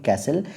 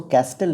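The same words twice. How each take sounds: First: "कैसल" with no t sound; silent-t castle. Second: "कैस्टल" with the t wrongly sounded; mispronounced castle. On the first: Teacher shows students the correct reading, "कैसल" with silent t. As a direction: say "कैसल", the s running straight into the l. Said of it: "इसको पढ़ते हैं कैसल". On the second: Teacher shows students the misreading, "कैस्टल" with a sounded t. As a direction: say "कैस्टल", pronouncing the t after the s. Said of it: "इसको कैस्टल नहीं पढ़ते हैं". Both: Shown as a demonstration.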